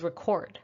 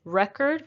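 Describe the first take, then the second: First: Record as rih-KORD; stress on second syllable. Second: Record as REK-erd; stress on first syllable. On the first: Teacher introducing the verb, record stressed on KORD. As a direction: put the weight on KORD in record. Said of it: "it's a verb". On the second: Teacher introducing the noun, record stressed on REK. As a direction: hit REK in record, weak ending. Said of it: "The first syllable is stressed". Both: Shown as a demonstration.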